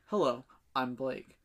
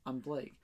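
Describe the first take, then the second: First: Slow, low self-introduction; lightly put-on smooth greeting, drawn out; rehearsed suave introduction. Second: Low, soft self-introduction; understated, low and soft rehearsal; casual rehearsed introduction. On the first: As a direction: practise a slow, deep hello. Rehearsing a second, weightier introduction. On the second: Acted. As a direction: practise your name quietly, pitched down. Rehearsing an introduction in his head.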